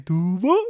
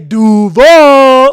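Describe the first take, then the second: First: The name is said quietly and flatly. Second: The name is shouted with loud, drawn-out energy. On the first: It shows no excitement. The speaker calls it wrong. "You can't just say Duval" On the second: It shows hype and enthusiasm. The speaker calls it right. "You gotta say it like that"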